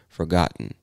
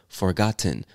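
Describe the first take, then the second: First: The word is said in a relaxed everyday way. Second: The word is said in a careful, full way. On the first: "the more natural or more common pronunciation would be forgotten" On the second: "you could say forgotten. Absolutely nothing wrong with that"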